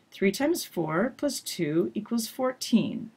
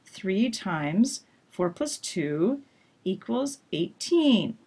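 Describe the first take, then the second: First: "Three times four plus two equals fourteen" grouped with pauses, voice only falling at "fourteen"; grouping contrast demo; thought groups. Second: Slow "three times four plus two" in pauses, voice held up, then "equals eighteen" falling; thought groups. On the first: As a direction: keep it up until the end. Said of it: "don't drop your voice down until the end". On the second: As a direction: pause but keep the voice up. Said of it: "in the math example here". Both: Shown as a demonstration.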